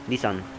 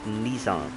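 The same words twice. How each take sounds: First: The first vowel is short and clipped. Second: The first vowel is stretched out longer. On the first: This is the original Japanese way. "It's Nissan in the in Japanese" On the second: This is the usual English way. "in English you usually say it more like Nissan. So there, you stretch out the uh, I"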